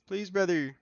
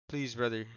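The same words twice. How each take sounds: First: High, loud mock begging; mock pleading. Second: Said in the usual way. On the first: Streamer begging viewers for help, loud mock pleading. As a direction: plead louder, pitched right up.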